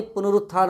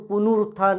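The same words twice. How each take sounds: First: पुनरुत्थान with short, light middle vowel; corrected form. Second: पुनरुत्थान with "noo" in the middle; wrong long u. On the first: Teacher correcting the word, light-vowelled पुनरुत्थान. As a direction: say पुनरुत्थान without stretching the second syllable. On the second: Teacher showing the mistaken form, long-u पुनरुत्थान. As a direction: say पुनरुत्थान as pu-noo-rut-thaan. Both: Shown as a demonstration. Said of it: "नहीं".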